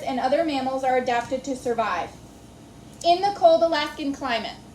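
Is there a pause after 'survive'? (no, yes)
yes. It stops with a full pause after survive. The last phrase is left as a broken fragment. The speaker calls it wrong. "If I read it like this"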